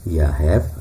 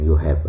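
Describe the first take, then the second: First: The first vowel is an A sound. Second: The first vowel is an O sound. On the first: One dialect of the language says it this way. "ada A" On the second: The other dialect says it this way. "ada O"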